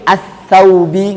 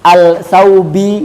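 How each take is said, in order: First: The L sound merges into a doubled s. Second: The L sound is clearly pronounced before s. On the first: The speaker calls it right. "tapi as saubi ngoten" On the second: The speaker calls it wrong. "kita bacanya nggak boleh"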